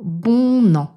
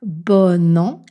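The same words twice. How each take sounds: First: The vowel in bon is nasal, not linked. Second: The vowel in bon is oral, linked with n. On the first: The speaker calls it wrong. "et pas « bon an »" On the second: The speaker calls it right. "je dis « bon an »"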